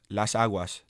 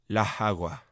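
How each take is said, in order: First: The syllable-final s sounds are fully pronounced. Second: The syllable-final s sounds are aspirated or dropped.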